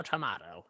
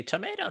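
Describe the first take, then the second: First: TOMATO said as "to-MAH-to" in a put-on voice; put-on character voice. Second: TOMATO said as "to-MAY-to" in a put-on voice; put-on character voice. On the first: Game master mimicking an absent character, "tomato" as to-MAH-to in that voice. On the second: Game master mimicking an absent character, "tomato" as to-MAY-to in that voice. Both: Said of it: "he would say it in that voice".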